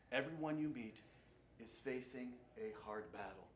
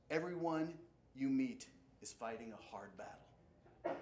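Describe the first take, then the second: First: "Everyone you meet" set apart, then "is facing a hard battle" softer; quiet emphasis. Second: Said in the usual way. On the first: Shown as a demonstration. Preacher pressing the quote home to the congregation, softer. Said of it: "Be kind". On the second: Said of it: "Someone once said".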